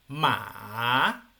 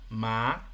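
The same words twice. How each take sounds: First: The pitch falls and then rises. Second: The pitch rises steadily. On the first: It means horse. "una pronunciación que baja y luego asciende" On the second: It means sesame seed. "elevación del tono"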